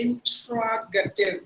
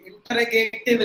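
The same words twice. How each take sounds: First: Interrogative very slow, in-te-rog-uh-tiv; teacher drills the correct stress slowly; right way. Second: Teacher shows the mistake; wrong way. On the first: Correct pronunciation, very slow. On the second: Wrong long-A pronunciation. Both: Shown as a demonstration. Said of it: "interrogative இல்ல".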